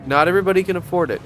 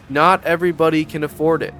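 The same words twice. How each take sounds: First: Quick, breezy brush-off; mock dismissive. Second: Said in the usual way. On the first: Shown as a demonstration. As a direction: toss it off fast like it's obvious.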